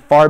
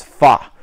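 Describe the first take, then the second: First: Said in the usual way. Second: "far" as fah, no R; British FAR. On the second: Shown as a demonstration. Recapping for viewers, "far" without its R. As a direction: leave the R off "far". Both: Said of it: "far becomes fa".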